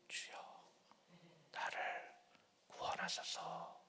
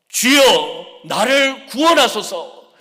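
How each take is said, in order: First: It is said in a small, quiet voice. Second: It is said in a loud, shouting voice.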